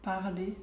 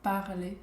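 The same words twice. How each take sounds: No difference in how they are said.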